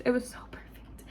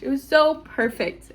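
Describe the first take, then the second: First: Breathy whispered repeat of it was so perfect. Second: Said in the usual way. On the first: Real, not acted. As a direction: whisper it to yourself, awed.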